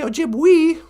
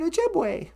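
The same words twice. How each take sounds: First: The final vowel does not sound like 'ay'. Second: The final vowel sounds like 'ay'. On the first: The speaker calls it wrong. "You don't say Ojibwe" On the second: The speaker calls it right. "E's sound like A's, like in the word Ojibwe"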